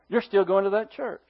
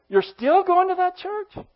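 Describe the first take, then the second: First: The pitch falls at the end. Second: The pitch rises at the end. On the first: It is a statement of fact. "What's that? It's a statement" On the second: It is a question. "What is that? Question, right?"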